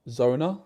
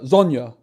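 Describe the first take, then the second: First: The middle consonant is a plain n sound. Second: The middle consonant is an ny sound. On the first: The speaker calls it wrong. "Zo no Zona?" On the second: The speaker calls it right. "Zonya, right?"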